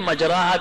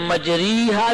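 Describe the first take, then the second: First: The vowel after r is a full ah. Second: The vowel after r is a full ee. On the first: "مجراحا بھی نہیں پڑھیں گے" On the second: "مجریحا بھی نہیں پڑھیں گے"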